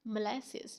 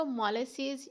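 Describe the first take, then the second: First: "molasses" as muh-LASS-iz; correct pronunciation. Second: "molasses" as MAW-le-seez; mispronounced "molasses", stressed at the front; wrong pronunciation. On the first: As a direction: say "molasses" stressing the middle LASS. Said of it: "आप इसको बोलेंगे". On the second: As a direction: say "molasses" with open first vowel, long seez. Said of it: "इस तरह की pronunciation में नहीं बोलेंगे". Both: Shown as a demonstration.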